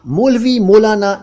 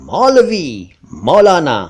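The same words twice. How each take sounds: First: मौलवी, मौलाना high with rounded "o"; mispronounced मौलवी, मौलाना. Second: मौलवी, मौलाना with open "au"; correct मौलवी, मौलाना. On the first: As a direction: rattle off मौलवी, मौलाना wrongly as "molvi, molana". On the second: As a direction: say मौलवी, मौलाना as "maulvi, maulana". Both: Shown as a demonstration. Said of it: "नहीं, नहीं, नहीं".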